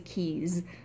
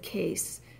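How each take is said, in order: First: The word ends with a Z sound. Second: The word ends with an S sound. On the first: "with the E sound and then a, a Z at the end" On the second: "a man said case instead of keys"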